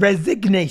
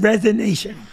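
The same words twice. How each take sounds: First: The word is said with a G sound. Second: The word is said without a G sound. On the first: The speaker calls it right. "there's a G in that word" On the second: The speaker calls it wrong. "You said resignation"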